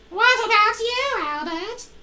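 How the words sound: It is said in a tiny child's voice.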